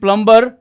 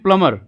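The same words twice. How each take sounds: First: A b sound is heard in the middle. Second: No b sound is heard in the middle. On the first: The speaker calls it wrong. "It's not going बी" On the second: The speaker calls it right. "It's going बी"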